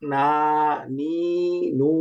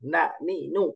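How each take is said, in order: First: The vowels are drawn out long. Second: The vowels are short and quick. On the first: The speaker calls it wrong. "নট না নি নু, এরকম টানা যাবে না" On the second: The speaker calls it right. "এরকম তাড়াতাড়ি"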